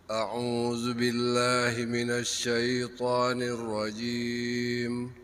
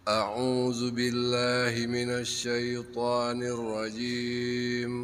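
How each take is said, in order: Both takes have the same delivery.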